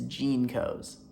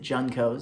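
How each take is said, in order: First: The first syllable sounds like 'jean'. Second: The first syllable sounds like 'jun'. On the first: The speaker calls it right. "it is Jeancos" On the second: The speaker calls it wrong. "I mispronounced Jeancos in the previous video. I pronounced it Juncos"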